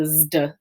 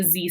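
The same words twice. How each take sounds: First: "zd" with a d right after the z, slow and low; zd sound. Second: "Z" as a simple buzzing z with no d; a bare English z in "Z"; plain z sound. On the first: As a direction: contrast it: z then d in "zd". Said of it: "it's a zd sound". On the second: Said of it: "It's not just a Z sound". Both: Shown as a demonstration.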